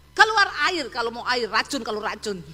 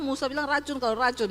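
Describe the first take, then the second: First: Moses losing his temper. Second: Said in the usual way. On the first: Retold or imitated. Angry Moses striking the rock.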